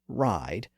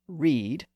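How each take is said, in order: First: The vowel sounds like 'eye'. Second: The vowel sounds like 'ee'. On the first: This is the modern pronunciation. "the pronunciation shifted from read to ride" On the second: This is the older medieval pronunciation. "the pronunciation shifted from read to ride"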